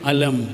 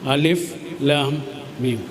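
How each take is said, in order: First: It is read as one short word. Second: It is read as three separate letter names. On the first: "അവിടെ എങ്ങനെയാണ് നമ്മൾ ഉപയോഗിക്കുക? വായിക്കുക എങ്ങനെയാ?" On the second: "അവിടെ എങ്ങനെ വായിക്കുക?"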